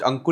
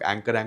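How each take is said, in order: First: The name is pronounced like 'Ankur', with short 'u' vowels. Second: The name is pronounced like the English word 'anchor'. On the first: This is how the name is really pronounced. The speaker calls it right. "अभी तक pronounced अंकुर ही है" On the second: People who don't know the name say it this way. The speaker calls it wrong. "जिनको नहीं पता उनको एंकर लगता है"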